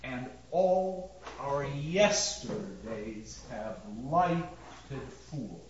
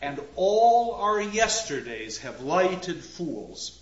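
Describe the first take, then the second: First: "And all our yesterdays have lighted fools" low, soft and very slow, counting beats; scanned beat by beat. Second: "And all our yesterdays have lighted fools" slowed, leaning on the stressed words; spoken verse stresses. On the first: Lecturer shows the class a missing beat, slowly scanned. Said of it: "We're missing a beat". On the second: Lecturer shows the line in speaking it, slow spoken stresses. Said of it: "again, in speaking it". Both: Shown as a demonstration.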